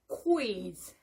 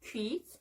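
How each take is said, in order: First: The lips round and glide into the vowel. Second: The lips stay still without a glide. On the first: The speaker calls it right. "Your mouth goes on in the center, to the center, and then moves on" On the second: The speaker calls it wrong. "not quiz"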